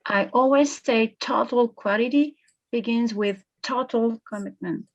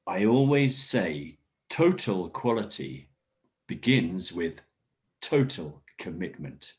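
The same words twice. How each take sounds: First: Total said firmly in both places; student repeats, stressing the repeated total. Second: Total hit firmly both times; teacher models emphasis on the repeated word total; stress on total. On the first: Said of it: "Excellent emphasis. I like the stress on that". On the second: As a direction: lean on each total to mark the repetition. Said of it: "listen to me and get the emphasis". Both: Shown as a demonstration.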